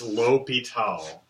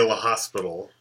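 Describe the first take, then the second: First: The name has no s sound, said French-style. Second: The name has an s sound, like hospital. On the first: The speaker calls it right. "It's L'Hôpital. It's actually French" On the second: The speaker calls it wrong. "please don't say La Hospital"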